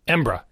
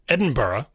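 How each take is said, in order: First: The word shrinks to two syllables, embra. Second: The ending is two syllables, burra. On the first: The speaker is in a real hurry. "if you're really in a hurry and you're native Scottish" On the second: The speaker is in no particular hurry. "where it's B-U-H-R-U-H, Burra"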